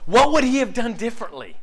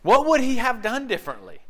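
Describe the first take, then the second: First: Preaching emphasis. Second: Preaching emphasis again. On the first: Rhetorical question, preached hard. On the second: Repeated question. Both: Real, not acted.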